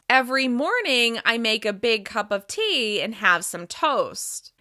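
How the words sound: The voice resonates normally, centered in the mouth. "Here's my normal resonance"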